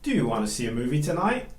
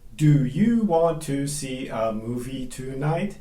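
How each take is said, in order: First: 'Do you want to' is reduced to 'do ya wanna'. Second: 'Do you want to' is said in full, unreduced. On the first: The speaker calls it right. "Do you reduces to do ya, and want to reduces to wanna. So it becomes" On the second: The speaker calls it wrong.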